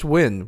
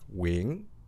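First: The name is said flat, without a rising inflection. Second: The name rises with a question-like inflection. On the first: "It's just Nguyen" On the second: "in Vietnamese, you would say, like, wing. And there's this, like, question and inflection"

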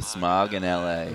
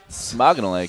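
First: The phrase is said at a normal pace. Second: The phrase is run together quickly as one name. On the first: It is the name of a beer. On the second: It sounds like a Finnish hockey player's name.

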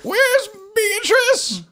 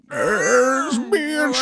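First: It is said in a less manly voice. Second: It is said in a more manly voice.

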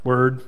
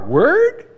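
First: It sounds annoyed. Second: It sounds disbelieving.

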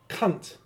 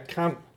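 First: The word is said harshly and flatly. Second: The word is said softly and warmly. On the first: It is a plain insult. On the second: It is a friendly term between friends. "a positive inflection in how he says it"

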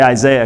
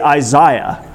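First: The name is said with an American pronunciation. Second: The name is said with a British pronunciation. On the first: "I have to say Isaiah because I'm American" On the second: "British people get to say Isaiah"

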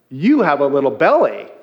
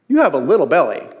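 First: The word belly carries the main stress. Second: The word little carries the main stress. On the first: There is a belly at all. "She was putting the emphasis on belly" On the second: The belly is only small. "I was putting the emphasis on little"

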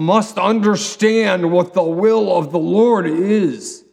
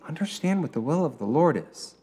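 First: It is said as a harsh rebuke. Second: It is said as a gentle encouragement.

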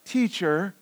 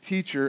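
First: It is said in a snarky, mocking tone. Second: It is said in a plain, neutral tone.

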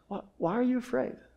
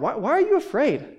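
First: It sounds gentle and compassionate. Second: It sounds like a stern rebuke.

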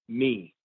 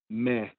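First: It ends in a closed ee vowel. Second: It ends in an open eh vowel. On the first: The speaker calls it wrong. "That's why they never say me" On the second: The speaker calls it right. "they say meh"

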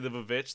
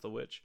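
First: The title is said with an extra V sound. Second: The title is said with a plain W sound. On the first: It is said this way as a joke. The speaker calls it wrong. "that's for fun" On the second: This is the intended pronunciation. The speaker calls it right. "I do know it's pronounced the witch"

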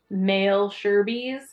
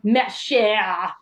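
First: Every letter is sounded out as in English. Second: Many letters are silent, as in French. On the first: The speaker calls it wrong. "if you sounded it out in English, it looked like male Sherbies" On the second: The speaker calls it right. "they come over the speaker and they tell you like next stop"

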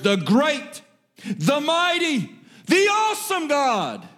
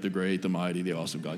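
First: It is read with lively, rising energy. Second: It is read in a flat, lifeless way. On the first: The speaker calls it right. "I feel like you have to read it that way" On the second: The speaker calls it wrong. "You can't do it that way"

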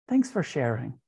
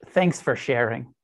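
First: It is said with a friendly tone. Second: It is said with a sarcastic tone.

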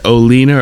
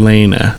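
First: The E is said as a long 'ee'. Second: The E is said as a short 'eh'. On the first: "the hard E" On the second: "the soft E"

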